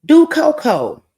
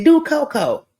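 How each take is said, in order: First: High, louder call of Do Coco, stretched slowly; called-out quote. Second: Called-out quote again. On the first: Someone at the party calling out Do Coco, slow and loud. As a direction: sing out Do Coco like a party shout. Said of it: "somebody said". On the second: Reminding the friend of the party call, quicker and lighter. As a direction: toss off Do Coco like a laughing reminder. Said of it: "Remember somebody said". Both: Retold or imitated.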